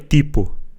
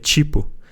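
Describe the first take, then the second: First: It begins with a plain t sound. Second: It begins with a ch sound. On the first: The speaker calls it wrong. "não é tipo" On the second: The speaker calls it right. "o nosso T, quando tem um I, ele vira um C H"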